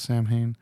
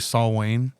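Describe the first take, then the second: First: It is pronounced like 'Sam Hain'. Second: It is pronounced like 'Saul Wayne'. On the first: This is how the band's singer says it. "I'm pretty sure it's Sam Hain" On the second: This is how some fans say it. "I've heard people say Saul Wayne"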